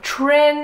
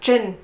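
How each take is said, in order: First: The name is said the Americanized way. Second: The name is said the Vietnamese way. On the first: The speaker calls it wrong. "Trin is like the Americanized one" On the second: The speaker calls it right. "Jin is the correct one"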